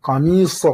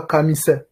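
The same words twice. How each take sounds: First: Qamisa avec un sad emphatique, voyelles sombres; emphatic sad. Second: Qamisa avec un sin léger, à la manière d'une erreur d'élève; wrong sin sound. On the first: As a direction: dis Qamisa avec le s grave du sad, la bonne version. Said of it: "c'est sad". (Qamisa avec le sad grave et emphatique) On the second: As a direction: dis qamisa avec le s clair du sin, la mauvaise version. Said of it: "c'est pas qamisa". (qamisa prononcé à tort avec un sin) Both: Shown as a demonstration.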